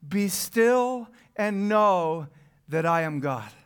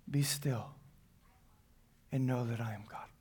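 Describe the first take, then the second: First: Very slow emphatic reading. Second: Much softer, lower and hushed; gentle hushed echo of the verse; soft repeat. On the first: Scripture read with weight. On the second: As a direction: let it sink in quietly. Repeated softly after reading. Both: Acted.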